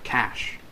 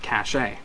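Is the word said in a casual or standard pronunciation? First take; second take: standard; casual. First: The word is said in the standard pronunciation. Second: The word is said in a casual pronunciation. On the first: The speaker calls it right. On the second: The speaker calls it wrong.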